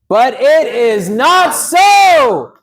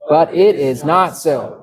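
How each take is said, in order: First: It is shouted loudly. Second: It is read at normal loudness.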